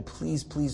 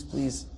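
First: Soft pleading please, please; begging. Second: A last please, softer still, almost gone; begging, fading. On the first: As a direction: beg quietly, a touch of despair. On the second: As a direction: let the final please die away in a plea. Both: Retold or imitated. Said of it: "the boy is begging".

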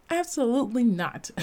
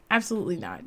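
First: Said in the usual way. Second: Quick, softer, laughing "Absolutely not"; amused repeat through a laugh. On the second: Real, not acted. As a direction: laugh it off, quieter and faster. Repeats answer, then laughs.

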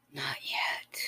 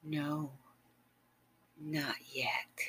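First: Said in the usual way. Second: Hushed teasing whisper; soft whisper. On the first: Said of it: "and smile and said". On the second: Acted. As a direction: deny him gently in a whisper. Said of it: "And you said".

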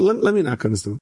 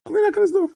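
First: Said in the usual way. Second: Leaps far higher on the repeat; sudden very high pitch. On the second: Acted. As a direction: jump way up in pitch, insisting. Insisting on knocking, repeated.

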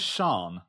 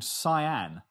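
First: Sian said as "shahn"; one syllable in Sian, starting with "sh"; correct Sian. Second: Cyan said like the colour, "SIGH-ann"; two syllables in Cyan, "sigh-ANN"; misread Sian. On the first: Revealing how the name is meant, Sian as "shahn". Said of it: "as in the name Sian". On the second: Telling of a friend's misread name, Cyan as "sigh-ann". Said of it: "Her name was Sian". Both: Shown as a demonstration.

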